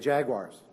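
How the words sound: It is said in an American accent. This is how the home team says it. "We say Jaguars"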